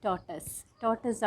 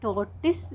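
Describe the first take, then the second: First: "ടോർട്ടസ്" ending in tus; correct pronunciation. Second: "ടോർട്ടിസ്" ending in tiss; wrong pronunciation. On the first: Host confirming the correct pronunciation, said properly. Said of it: "ആണ് correct pronunciation". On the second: Host showing another wrong version, mispronounced. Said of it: "എന്ന് പറയുന്നതും തെറ്റാണ്". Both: Shown as a demonstration.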